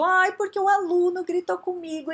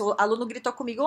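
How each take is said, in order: First: High, put-on whiny voice; hammed-up wounded complaint; mock complaint. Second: Said in the usual way. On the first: Shown as a demonstration. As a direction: whine it as an aggrieved victim. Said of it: "Tudo é interpretação minha". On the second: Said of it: "se eu, ou se eu fizesse".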